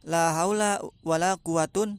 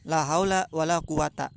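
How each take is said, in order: First: The last word ends in the sound -un. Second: The last word ends in a short -a. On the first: "boleh dibaca rofa" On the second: "boleh dibaca patah"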